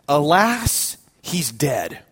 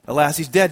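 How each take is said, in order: First: Slow, solemn bishop, sinking on the last words; mock-solemn pronouncement, falling away; grave announcement. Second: Said in the usual way. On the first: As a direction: break bad news gravely, dropping low. Bishop breaks grave news.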